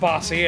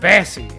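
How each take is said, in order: First: The first vowel sounds like 'o' in 'boss'. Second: The first vowel sounds like 'a' in 'bass'. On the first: This is how the text-to-speech voice reads the name. The speaker calls it wrong. "The machine wants to pronounce it Bossy" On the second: This is how the person's name is really said. The speaker calls it right. "Your name's pronounced Bassy"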